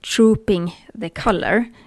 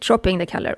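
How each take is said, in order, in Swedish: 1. Frasen sägs försiktigt och tydligt. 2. Frasen sägs snabbt och otydligt.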